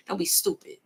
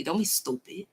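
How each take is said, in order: First: Said in the usual way. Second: "don't be stupid" said softer and gentler, as a polite aside; softer, respectful. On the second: Real, not acted. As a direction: reader softening the jab to the viewer, quietly.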